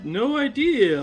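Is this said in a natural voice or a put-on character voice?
put-on. It is said in a put-on cartoon character voice.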